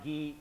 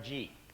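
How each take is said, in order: First: It begins with a hard g sound. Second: It begins with a j sound. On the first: The speaker calls it wrong. "not pronounced gi like a karate gi" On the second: The speaker calls it right. "G like the letter G"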